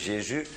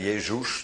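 First: The name is pronounced the French way. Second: The name is pronounced the German way. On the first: "de Fransen zeggen Jezus" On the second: "de Duitsers zeggen Jezus"

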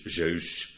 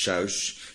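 First: The vowel sounds like Dutch eu, as in neus. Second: The vowel sounds like Dutch ui, as in huis. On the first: The speaker calls it wrong. "het rijmt op neus" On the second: The speaker calls it right. "maar ze spreken het uit als een ui"

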